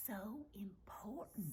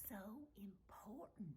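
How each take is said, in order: First: "so important" whispered slowly with a drawn-out "so"; stressed whisper. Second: "so important" repeated in an even softer whisper; fainter whisper. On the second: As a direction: let "so important" fade almost to breath. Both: Real, not acted. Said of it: "I'm whispering".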